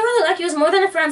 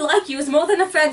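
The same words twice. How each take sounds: First: It is said in the speaker's normal accent. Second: It is said in a put-on British accent.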